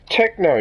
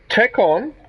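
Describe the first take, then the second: First: It sounds like one word, techno. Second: It sounds like two words, tech and on. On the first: The speaker calls it right. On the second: The speaker calls it wrong. "not tech on"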